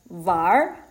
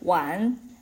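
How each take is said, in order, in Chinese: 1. 这个字结尾带有卷舌音。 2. 这个字结尾很平，没有卷舌音。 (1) "然后会变成玩" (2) "本来那个词是玩"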